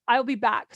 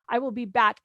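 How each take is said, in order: First: "I'll" given the main weight, falling after; emphasis on I'll. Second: Said in the usual way. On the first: Shown as a demonstration. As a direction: lean on "I'll" so the promise lands. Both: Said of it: "And we put the emphasis on".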